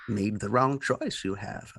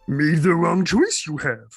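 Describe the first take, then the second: First: It is said in the speaker's normal voice. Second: It is said in a gravelly Yoda voice.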